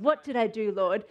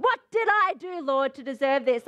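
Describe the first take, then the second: First: Low, sincere plea to the Lord; earnest, low-pitched question; genuine heart. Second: Indignant complaint thrown at the Lord; accusing, aggrieved question; accusation. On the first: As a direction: ask humbly in a lowered voice. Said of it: "said with a genuine heart of". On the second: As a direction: demand it as if wronged. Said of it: "it's an accusation against the Lord". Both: Acted.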